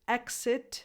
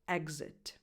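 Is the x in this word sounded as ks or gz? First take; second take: ks; gz. First: The x is sounded as ks. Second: The x is sounded as gz. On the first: "can be pronounced either with X or X sound" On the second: "Both correct"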